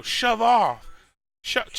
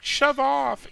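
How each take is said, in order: First: Put-on higher, louder brush-off, accent held back; snappy halfling girl. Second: Put-on much higher, loud Australian-accent "Shove off!"; a half-attempted Aussie snap; hammed-up Australian accent. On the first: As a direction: tell him to shove off sharply. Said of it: "funny accent that I'm not gonna try and do". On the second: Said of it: "but it's an Australian accent".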